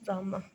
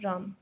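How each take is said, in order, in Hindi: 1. शब्द के अंत में हल्की साँस वाली ह ध्वनि है। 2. शब्द के अंत में कोई ह ध्वनि नहीं है। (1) "ह की ध्वनि एक चौथाई भाग हमारे कानों में पड़ती है" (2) "कुछ बच्चे राम बोलते हैं, लेकिन वो राम नहीं होता"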